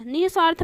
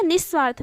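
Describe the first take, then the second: First: "निस्वार्थ" with h after ni, nih-svaarth; visarga form. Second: "निस्वार्थ" as nis-svaarth, no h; double s form. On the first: Teacher giving the first accepted form, h sounded. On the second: Teacher giving the second accepted form, s doubled. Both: Shown as a demonstration. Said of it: "भी सही है".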